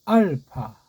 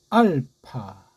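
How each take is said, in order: First: The middle consonant is a soft f-like sound. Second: The middle consonant is a hard p sound. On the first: "피읍 순경음식으로" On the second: "서양 애들식으로 했는데"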